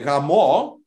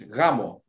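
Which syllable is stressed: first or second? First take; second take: second; first. First: The stress is on the second syllable. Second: The stress is on the first syllable. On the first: It means having sex. "it's what you do on the night of the wedding" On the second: It means wedding. "you put the emphasis on the A"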